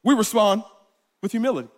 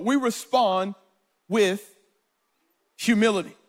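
First: Said in the usual way. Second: "humility" set apart by long pauses; paused emphasis. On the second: Shown as a demonstration. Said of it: "Simply put".

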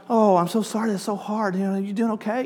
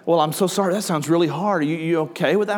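First: Higher, softer sympathetic tone; mock sympathy. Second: Said in the usual way. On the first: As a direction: coo the sympathy, a bit overdone. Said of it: "and I'm like". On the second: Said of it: "I can just say".

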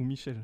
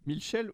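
First: Said in the usual way. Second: MICHEL with an L slipped in, "Milchel"; odd pronunciation. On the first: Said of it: "Michel ou Michel?". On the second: Shown as a demonstration. Player checking the inspector's name, MICHEL said as "Milchel". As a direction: say MICHEL as "Mil-chel". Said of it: "j'avais compris Milkshake".

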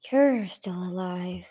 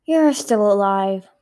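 First: Slow, cool villain's remark; cool, calm. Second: Drawn-out, forceful villain's remark; louder greeting. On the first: Blister remarking on her surviving sister, cool and calm. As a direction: say it slowly, coolly unimpressed. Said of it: "Blister remarked in a cool, calm voice". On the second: Blister greeting her surviving sister, loud and drawn-out. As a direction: say it slowly and loudly. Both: A narrator's reading.

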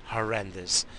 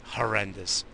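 The two takes are said the same way.

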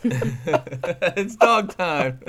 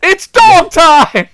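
First: Very slow lazy repeat; drawn-out echo. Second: Loud, slow, high announcer yell; hype shout. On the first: Retold or imitated. Repeats catchphrase slowly. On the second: Acted. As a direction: stretch it out like a hype call. Hyped commentator catchphrase.

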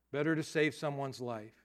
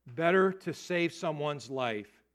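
First: Said in the usual way. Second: Better to save someone's life, each word slowed and weighted; slow emphatic proverb. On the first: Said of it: "that's not a proverb". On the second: Shown as a demonstration. Pastor coins a saying for the youth, slow and emphatic. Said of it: "that's not a proverb, but it sounds like one".

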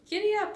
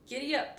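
First: High, loud, eager call; eager urging. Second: Lively, higher-pitched call to a horse; urging a horse. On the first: Girl urging her horse after the cowboy, high eager call. Annie echoes the urging, brighter. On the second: Cowboy urging his horse on, lively call. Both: A narrator's reading.

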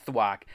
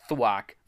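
The two takes are said the same way.

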